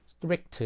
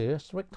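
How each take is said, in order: First: Strict said high and loud, punched out; emphatic strict. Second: Strict stretched out very slowly. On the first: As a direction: call out strict clearly with emphasis. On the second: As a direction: draw out strict slowly, syllable by syllable. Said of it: "strict 하면은". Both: Shown as a demonstration.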